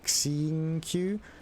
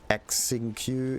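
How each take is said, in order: First: The name starts with an sh sound. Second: The name starts with an x sound. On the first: The speaker calls it right. "It's more like Xingqiu" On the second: The speaker calls it wrong. "it's not Xingqiu"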